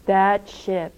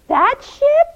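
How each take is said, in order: First: Said in the usual way. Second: Very high, loud, rising question; high-pitched disbelieving voice; incredulous question. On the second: Acted. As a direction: ask in utter amazement. Nora asks in disbelief.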